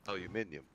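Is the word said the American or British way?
British. It is said the English way, with extra syllable.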